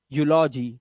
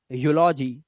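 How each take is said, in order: Both takes have the same delivery.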